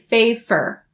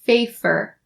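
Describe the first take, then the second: First: The middle consonant is a voiceless f sound. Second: The middle consonant is a voiceless f sound.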